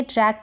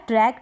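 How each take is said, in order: First: ट्रैक with an open "ae"; correct vowel demo. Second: Second ट्रैक with a long "ay", as "trake"; mispronunciation demo. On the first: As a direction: say ट्रैक like English "track". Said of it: "ए की मात्रा के रूप में". (ट्रैक में ऐ की मात्रा) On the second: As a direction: make ट्रैक rhyme with "lake". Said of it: "ट्रैक नहीं पढ़ेंगे". (ट्रैक को "ट्रेक" बोलकर दिखाना) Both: Shown as a demonstration.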